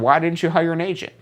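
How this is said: The question sounds light and curious.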